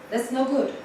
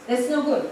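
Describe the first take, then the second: No difference in how they are said.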